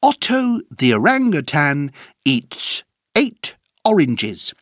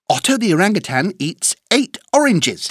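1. La phrase est dite à un rythme modéré. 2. La phrase est dite à un rythme rapide.

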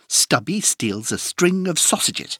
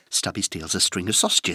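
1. La phrase est dite à un rythme rapide. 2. La phrase est dite à un rythme très rapide. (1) "plus vite" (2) "Encore plus vite"

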